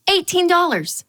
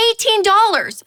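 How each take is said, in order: First: A raised, disbelieving read; stunned. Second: Much higher and louder, incredulous; outraged disbelief. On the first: Reading an absurd lemonade price, raised and stunned. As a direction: clock the price with a jolt. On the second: Repeating the lemonade price, high, loud and outraged. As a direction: nearly yelp the price back. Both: Retold or imitated.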